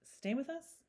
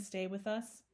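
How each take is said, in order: First: Higher, mildly nervous question; nervous echo. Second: Said in the usual way. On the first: A narrator's reading. Mr Brown repeating his wife's suggestion, mildly nervous. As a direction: echo it with a touch of unease. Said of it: "repeated Mister Brown nervously".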